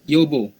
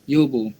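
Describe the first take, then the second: No difference in how they are said.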